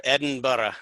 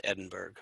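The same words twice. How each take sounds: First: Edinburgh said the Scottish way, as Edinbra; a quick playful Scottish Edinburgh, slightly louder; Edinburgh with a light Scottish accent put on. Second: Said in the usual way. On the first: Shown as a demonstration. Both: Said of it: "as you'll get your Scottish accent on".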